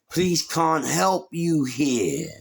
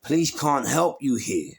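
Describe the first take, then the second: First: "Police can't help you here" dragged out slowly; slow menacing repeat. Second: Said in the usual way. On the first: Retold or imitated. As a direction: lean on each word, slow and threatening.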